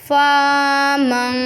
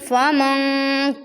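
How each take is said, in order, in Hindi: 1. पहला स्वर लंबा खींचा जाता है। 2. पहला स्वर छोटा रखा जाता है। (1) "फा जो है वो अलिफ मद्दा की जगह ले लेगा" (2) "फ़ा और मीम को भी स्ट्रेंच नहीं करेंगे"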